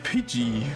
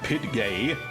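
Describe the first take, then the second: First: The name ends with a soft 'jee' sound. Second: The name ends with a hard 'gay' sound. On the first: The speaker calls it right. "Like Pidgey" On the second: The speaker calls it wrong.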